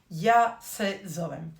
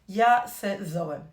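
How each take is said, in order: Both takes have the same delivery.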